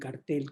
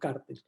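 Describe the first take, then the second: First: The stress is on the second syllable. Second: The stress is on the first syllable. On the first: The speaker calls it right. "como yo prefiero decir, sin acentuar la palabra en la letra A" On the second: The speaker calls it wrong. "entonces no cartel"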